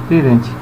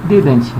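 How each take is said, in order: The two takes are said the same way.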